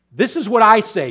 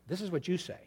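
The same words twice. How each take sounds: First: Louder and higher; loud take. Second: Much softer; quiet take. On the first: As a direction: hit "I" hard. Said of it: "loud take, contrasted". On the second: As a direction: drop the voice right down. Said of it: "quiet take, contrasted". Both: Shown as a demonstration.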